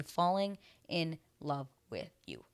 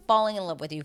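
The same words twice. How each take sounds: First: FALLING, IN, LOVE, WITH, YOU, each word set apart; slow word-by-word tally of "Falling in love with you"; counting out words. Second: Said in the usual way. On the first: Real, not acted. Counts five words, one by one.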